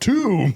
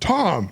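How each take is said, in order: First: The word rhymes with room. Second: The word rhymes with bomb. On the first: The speaker calls it right. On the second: The speaker calls it wrong. "he's like"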